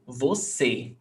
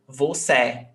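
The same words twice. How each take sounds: First: "você" ending in a closed ê, vo-SAY; corrected closed vowel. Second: "você" ending in an open é, vo-SEH; wrong open vowel. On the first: Teacher corrects the accent for students, "você" with closed final ê. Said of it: "we change to você". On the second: Teacher shows the wrong accent mark, "você" with open final é. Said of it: "We don't say você". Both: Shown as a demonstration.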